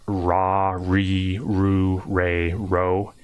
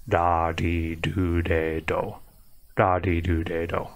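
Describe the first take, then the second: First: Ra, re, ru, re, ro with full American R; slow, drawn-out English R on each of ra, re, ru, re, ro; hard English R. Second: Da, di, do, de, do, low and even with soft tapped D; syllables linked smoothly, each R flicked like a light D; soft-D Japanese R. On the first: Teacher showing learners the wrong Japanese R, hard R. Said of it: "It's not a hard R". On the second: Teacher making the sounds for learners, soft-D R. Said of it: "sound like a soft D". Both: Shown as a demonstration.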